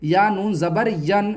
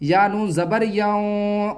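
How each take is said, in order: First: ین with a clear, fully sounded noon, no nasal hiding; wrong clear noon. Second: یاؤں with the noon hidden in the nose, slow; nasal ikhfa. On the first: Teacher showing students the wrong clear noon in ین. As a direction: read ین with the noon said plainly, the way not to do it. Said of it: "اب آپ اس کو اس طرح نہیں پڑھیں گے". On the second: Teacher showing students the correct nasal ikhfa in یاؤں. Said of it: "اس کی آواز کو ناک میں چھپا کر پڑھیں گے". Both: Shown as a demonstration.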